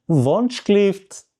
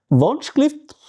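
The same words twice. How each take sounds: First: Wunschlift drawn out delicately, raised pitch. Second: High-pitched polite call, Wunschlift; calling the waiter. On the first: Customer asking the waiter once more, delicately. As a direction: say Wunschlift as a gentle, lengthened request. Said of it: "tu dis encore une fois, délicatement". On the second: Customer raising a finger to the waiter, high call. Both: Shown as a demonstration.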